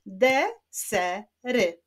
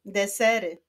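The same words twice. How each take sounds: First: "Desery" slowly, in three separate syllables. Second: Said in the usual way. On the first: Shown as a demonstration. Teacher clapping the rebus answer, "Desery" slowly split. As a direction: clap out "Desery", pausing between syllables. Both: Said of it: "Wyklaszczmy sylaby w tym wyrazie".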